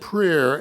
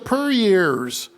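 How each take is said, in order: First: The name is said like prayer. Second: The name is said as pur-year. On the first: The speaker calls it right. "quickly corrected me, and uh, I've said prayer ever since" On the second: The speaker calls it wrong. "a Midwesterner, I immediately said sharply myself"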